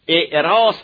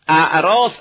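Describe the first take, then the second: First: The word begins with the vowel i. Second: The word begins with the vowel a. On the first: It means the act of holding a wedding. "اگه خوندی مصدر هست یعنی در عروسی کردن" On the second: It means weddings, in the plural. "اگه خوندیم یعنی در عروسی ها که جمع باشه"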